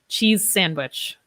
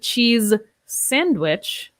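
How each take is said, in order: First: The z and s are linked together. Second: The z and s are said separately. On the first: The speaker calls it right. "I would say ... I link those similar sounds" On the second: The speaker calls it wrong. "I would not say"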